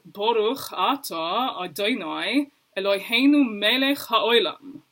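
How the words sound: It is said with an Ashkenazi pronunciation. "they would say something more like"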